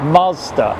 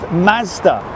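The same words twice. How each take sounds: First: Mazda is said with an American pronunciation. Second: Mazda is said with a British pronunciation.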